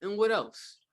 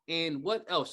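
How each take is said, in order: First: Curious prompt. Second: Said in the usual way. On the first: Shown as a demonstration. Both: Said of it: "and you go".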